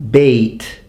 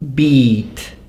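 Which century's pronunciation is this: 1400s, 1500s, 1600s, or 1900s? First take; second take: 1500s; 1400s. First: The vowel is pronounced as in the 1500s. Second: The vowel is pronounced as in the 1400s. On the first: "fifteen hundreds" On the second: "the way they would be pronounced in the fourteen hundreds"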